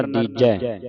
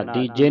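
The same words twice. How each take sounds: First: ਦੀਜੈ ending in an open "ai"; correct vowel shown. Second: ਦੀਜੇ ending in a close "ay"; wrong vowel shown. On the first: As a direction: say ਦੀਜੈ as dee-jeh, open final vowel. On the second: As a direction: say ਦੀਜੇ as dee-jay. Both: Shown as a demonstration. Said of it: "ਦੀਜੇ ਨਹੀਂ ਪੜਨਾ".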